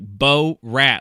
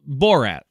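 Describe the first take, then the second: First: It is said as two separate words with a break. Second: It is said smoothly as one single word. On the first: The speaker calls it wrong. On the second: The speaker calls it right.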